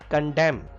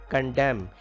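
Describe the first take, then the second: The two takes are said the same way.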